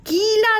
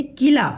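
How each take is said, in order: First: कीला with a long stretched की; wrong long vowel. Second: किला with a short, quick कि; correct short vowel. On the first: Teacher warning children against the long की in कीला. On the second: Teacher giving children the right short कि in किला. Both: Shown as a demonstration. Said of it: "कीला नहीं होगा".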